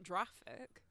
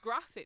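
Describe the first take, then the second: First: The word begins with a J sound. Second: The word begins with a hard G sound. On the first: The speaker calls it wrong. "not graphic" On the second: The speaker calls it right. "it's it's graphic"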